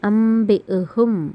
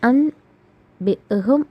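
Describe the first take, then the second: First: An m sound comes before the b. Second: A clear n sound comes before the b. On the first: "പക്ഷെ നമ്മളെങ്ങനെ വായിക്കും?" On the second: "എന്നാണ് എഴുതിയിരിക്കുന്നത്"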